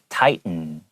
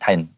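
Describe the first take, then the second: First: A brief stop replaces the middle T. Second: The middle T is dropped with no stop. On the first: The speaker calls it right. "它也会停顿一下" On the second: The speaker calls it wrong. "如果我完全觉得它不在"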